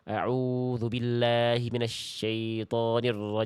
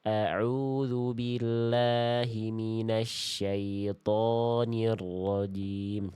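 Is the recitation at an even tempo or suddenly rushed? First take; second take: rushed; even. First: The tempo suddenly speeds up partway through. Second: The tempo stays even throughout. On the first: The speaker calls it wrong. "jangan tiba-tiba nyepetin ... Nah, jangan gitu" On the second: The speaker calls it right. "sesuaikan dengan tempo"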